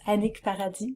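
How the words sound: The surname is said with a French pronunciation. The speaker calls it right. "in French"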